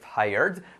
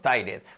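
First: It is said with an American accent. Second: It is said with a Spanish accent. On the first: The speaker calls it right. "En Estados Unidos" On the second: The speaker calls it wrong. "acabamos diciendo tired"

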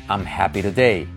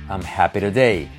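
The two takes are said the same way.

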